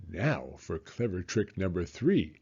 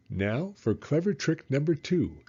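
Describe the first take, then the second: First: Low, scheming mutter; sly crocodile. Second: A touch higher, gleeful scheming; sly crocodile. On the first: Crocodile plans his third trick, low sly voice. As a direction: plot it to himself. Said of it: "said the enormous crocodile". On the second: Crocodile plans his second trick, gleeful voice. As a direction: announce the trick with glee. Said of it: "he said to himself". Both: A narrator's reading.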